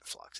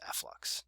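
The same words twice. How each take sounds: First: The name is said as one syllable, flux. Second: The letter F is said, then lux. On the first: This is how other people say it. The speaker calls it wrong. "you all call it flux. Uh, but it's not flux" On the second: This is how the speaker says it. The speaker calls it right. "it's F-Lux"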